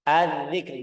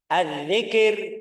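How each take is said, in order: First: The k runs straight into the r. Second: An extra vowel sits between k and r. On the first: The speaker calls it right. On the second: The speaker calls it wrong.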